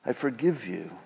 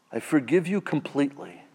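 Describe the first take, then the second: First: Softer, quiet and gentle; tender forgiveness. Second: Said in the usual way. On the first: Acted. Jesus forgiving the listener, soft and tender. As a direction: say it softly, like a gentle pardon. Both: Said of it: "But the voice of Jesus says".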